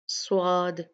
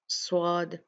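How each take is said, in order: First: The s is said with the lips rounded. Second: The same.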